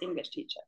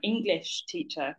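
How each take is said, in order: First: The stress falls on the word teacher. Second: The stress falls on the word English. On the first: The intended meaning is clear. The speaker calls it right. "what I think you're trying to say" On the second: The listener is unsure which kind of teacher is meant. The speaker calls it wrong. "if you do put the stress on English, it might make us question"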